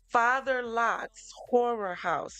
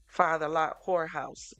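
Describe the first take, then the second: First: Horror and house are said as separate clear words. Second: Horror house blurs into one word, 'whorehouse'. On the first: The speaker calls it right. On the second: The speaker calls it wrong.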